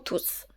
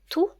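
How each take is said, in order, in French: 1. Le mot finit par un son s bien net. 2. Le mot finit par une voyelle, sans son s. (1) "T ou S peut se prononcer tout ou tous" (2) "T ou S peut se prononcer tout ou tous"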